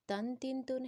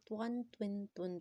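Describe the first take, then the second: First: تن تن تن with a thin, light T. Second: توان توین تون with a thick, rounded T; bold heavy T. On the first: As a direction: say تن تن تن with a plain T, no rounding. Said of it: "اس کو light پڑھنا ہے". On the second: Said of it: "موٹا کر کے پڑھنا ہے". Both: Shown as a demonstration.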